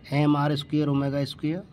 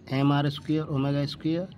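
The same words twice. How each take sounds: The two takes are said the same way.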